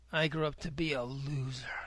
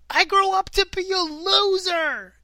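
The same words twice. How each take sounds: First: The line is quiet and defeated. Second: The line is loud, almost yelled. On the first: "he says it much more resigned, much sort of like defeated" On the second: "he like kind of yells it"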